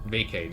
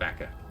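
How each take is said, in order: First: The word ends with an 'ay' vowel sound. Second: The word ends with an 'ah' vowel sound. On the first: The speaker calls it right. "pronounce the A's differently. Vacay" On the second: The speaker calls it wrong. "not not vaca"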